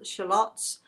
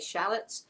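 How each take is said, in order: First: The word is said in a non-American way. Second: The word is said in an American way.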